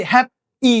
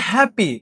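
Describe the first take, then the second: First: happy split in two, হ্যাপ... ই; wrongly broken word. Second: Said in the usual way. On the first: Shown as a demonstration. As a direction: pause inside happy before the final vowel. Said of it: "এরকম ভাঙানো যাচ্ছে". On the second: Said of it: "এগুলা কি happy এরকম ভাঙানো যাচ্ছে".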